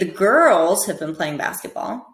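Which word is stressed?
girls. The word girls carries the main stress. "try and stress each word differently"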